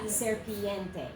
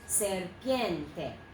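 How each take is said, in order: First: The word is split into four syllables. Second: The word is said in three syllables. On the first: The speaker calls it wrong. "And not serpiente" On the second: The speaker calls it right. "It is serpiente. Three syllables"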